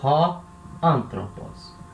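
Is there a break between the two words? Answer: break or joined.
break. The two words are said with a break between. The speaker calls it wrong. "Eu não separo"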